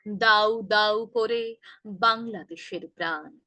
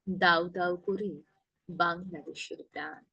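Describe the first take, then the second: First: It is said in a firm, strong voice. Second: It is said in a soft, quiet voice.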